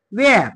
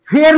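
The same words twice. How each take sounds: First: "वेअर" starting on a clean W; silent H. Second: "फेअर" with an F for the WH; wrong pronunciation. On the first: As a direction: open "वेअर" with W, no breath. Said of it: "फेअर नाही म्हणायचं". ("वेअर", ह न उच्चारता) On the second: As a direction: start "फेअर" on a strong ph sound. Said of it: "नाही म्हणायचं". ("फेअर", फ ने सुरुवात करून) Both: Shown as a demonstration.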